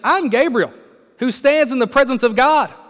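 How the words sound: It is read in a stern, forceful tone. The angel is displeased at being doubted. The speaker calls it right. "I think it was more like this"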